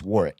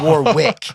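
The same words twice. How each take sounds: First: The middle W sound is silent. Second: The middle W sound is pronounced. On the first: The speaker calls it right. "you don't say the W, so it's Warwick" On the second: The speaker calls it wrong. "It's not Warwick"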